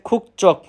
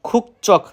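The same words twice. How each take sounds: Both takes have the same delivery.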